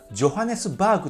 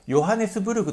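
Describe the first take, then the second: First: It starts with a J sound and ends 'baagu'. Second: It starts with a Y sound and ends 'burugu'. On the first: The speaker calls it right. "ジョハネスバーグと発音してください" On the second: The speaker calls it wrong. "ヨハネスブルグと発音するのではなく"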